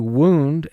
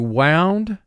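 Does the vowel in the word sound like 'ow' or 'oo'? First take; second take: oo; ow. First: The vowel sounds like 'oo'. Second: The vowel sounds like 'ow'. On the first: It means an injury. "as in the soldier received a wound" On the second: It means twisted or coiled up. "as in he is all wound up"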